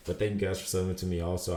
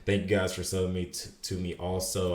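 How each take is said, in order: First: Said in the usual way. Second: Slurred, stumbling speech; words running together; slurring words. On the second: Real, not acted. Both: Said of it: "I'm slurring my words so much today".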